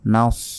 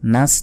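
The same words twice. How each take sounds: First: The s sound is heavy and emphatic. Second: The s sound is plain and light. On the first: The speaker calls it right. "এখানে তো আছে সদ" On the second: The speaker calls it wrong. "নাস নয়"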